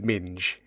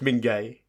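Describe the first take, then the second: First: The name ends in a consonant sound. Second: The name ends in an 'ay' vowel sound. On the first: It is read out as it is spelt. The speaker calls it wrong. "I'm sure it's not pronounced like that" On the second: It is the likely real pronunciation. The speaker calls it right. "I'm sure it's Mingay"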